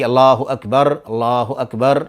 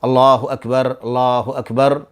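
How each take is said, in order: Both takes have the same delivery.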